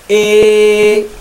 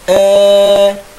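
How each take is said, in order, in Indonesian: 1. Vokal ini condong kuat dari a ke i. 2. Vokal ini sedikit condong dari a ke e.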